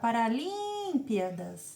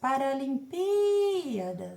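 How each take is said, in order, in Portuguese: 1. A tônica cai em outra sílaba, não 'pi'. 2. A tônica cai na sílaba 'pi'. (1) "Você não vai gritar" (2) "o acento seria no Pi"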